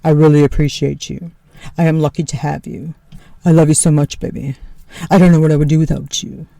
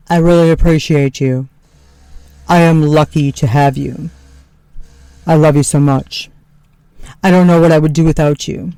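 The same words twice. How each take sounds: First: Lower, earnest husband voice, lightly quicker at the end; imitating husband. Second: Lower, earnest husband voice; imitating husband. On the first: Wife repeating Tony's thanks, spot-on lower sincere voice. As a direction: copy his grateful tone, lower. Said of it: "That's actually exactly how he sounds". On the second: Wife mimicking husband Tony thanking her, lower sincere voice. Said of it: "said things to me like".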